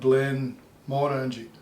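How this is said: There is a pause between Glen and Morangie. This is how it is said near the distillery. "they would put a hole, a pause between the Glen and the Morangie"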